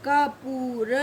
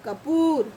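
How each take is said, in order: First: कपूर split as ka, poo, ra; syllable by syllable. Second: कपूर in one piece with a long oo; joined-up word. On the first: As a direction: separate each sound of कपूर. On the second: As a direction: run कपूर together, holding poor. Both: Shown as a demonstration. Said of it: "जब हम इनको अलग-अलग pronounce करेंगे".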